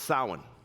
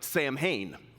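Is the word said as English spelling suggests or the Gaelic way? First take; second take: Gaelic way; English spelling. First: It is said with the Gaelic pronunciation. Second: It is read aloud following English spelling. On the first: The speaker calls it right. "So it's pronounced Samhain" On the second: The speaker calls it wrong. "it looks like Samhain"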